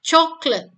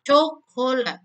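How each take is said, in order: First: Chocolate said CHOK-let, two syllables, higher and louder; chocolate in two quick syllables, stress on CHOK; spoken English two syllables. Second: Coklat said in three written parts, co-ko-lat; the written three-syllable Coklat. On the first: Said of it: "dia hanya punya dua silabel". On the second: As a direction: break Coklat into three beats. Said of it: "kalau silabelnya ditulis itu ada tiga bagian". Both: Shown as a demonstration.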